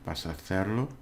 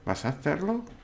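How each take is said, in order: First: It is said with statement intonation. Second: It is said with question intonation. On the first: You are going to do it. "you are going to do it" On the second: Are you going to do it? "are you going to do it? ... remember the intonation"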